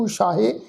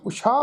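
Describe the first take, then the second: First: ਉਸ਼ਾਹੇ with an added -he syllable; wrong sounded ending. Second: ਉਸ਼ਾ in two syllables, ending on long aa; silent ਸਿਹਾਰੀ. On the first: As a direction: sound a clear 'he' at the end of ਉਸ਼ਾਹੇ. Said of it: "ਇਹਨੂੰ ਉਸ਼ਾਹੇ ਨਹੀਂ ਪੜ੍ਹਨਾ". ('ਉਸ਼ਾਹੇ', ਅੰਤ ਵਿੱਚ 'ਹੇ' ਬੋਲ ਕੇ) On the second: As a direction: say ਉਸ਼ਾ with no 'he' after it. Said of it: "ਉਸ਼ਾ ਪੜ੍ਹਨਾ ਵਾ". ('ਉਸ਼ਾ', ਅੰਤ ਵਿੱਚ 'ਹੇ' ਤੋਂ ਬਿਨਾਂ) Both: Shown as a demonstration.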